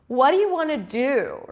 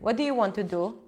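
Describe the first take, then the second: First: The pitch jumps high within the sentence. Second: The pitch stays flat across the sentence. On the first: "all of a sudden go high in pitch" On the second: "I'll use my Israeli accent. ... so it's kind of flat"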